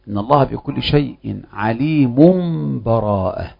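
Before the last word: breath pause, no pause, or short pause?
no pause. The words run straight on with no break. The two passages are joined without separation. "الوجه الأول الوصف"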